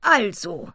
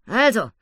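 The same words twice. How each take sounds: First: High, loud "Also" falling slowly; "Also" drawn out high and falling; jungle granny's voice. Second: High, loud "Also" with a grunt. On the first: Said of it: "sagte sie". (hohes, lautes „Also“, langsam fallend) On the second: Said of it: "grunzte Annabella". („Also“ hoch und laut, gegrunzt) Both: Acted.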